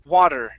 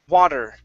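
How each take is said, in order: The two takes are said the same way.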